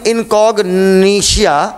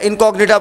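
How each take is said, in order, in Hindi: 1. अंत का उच्चारण 'shia' ध्वनि के साथ होता है। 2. अंत का उच्चारण 'ta' ध्वनि के साथ होता है।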